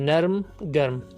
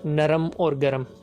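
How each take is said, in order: First: The r and m are said together with no vowel. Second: An extra vowel is inserted before the final m. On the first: The speaker calls it right. "असल लफ्ज़ है" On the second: The speaker calls it wrong. "गलत तरीके से पढ़ते और बोलते हैं"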